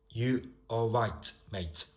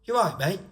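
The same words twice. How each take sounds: First: Said in the usual way. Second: High, loud regional British greeting; run-together greeting in a regional accent. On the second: Shown as a demonstration. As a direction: call it out in a local accent, rising on "mate". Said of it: "Think about how I've said it".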